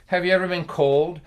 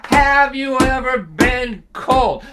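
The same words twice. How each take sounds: First: Said in the usual way. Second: "have you ever been cold?" much higher, louder and slow, every word pressed; insistent repeat. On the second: Retold or imitated. Dad repeats question, insisting.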